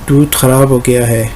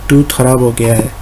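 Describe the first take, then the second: No difference in how they are said.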